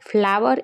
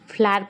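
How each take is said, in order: First: The word is said with two syllables. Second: The word is said with one syllable. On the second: "ફ્લાવરનો ઉચ્ચાર ફ્લાર પણ થાય છે"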